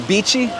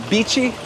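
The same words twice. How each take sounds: The two takes are said the same way.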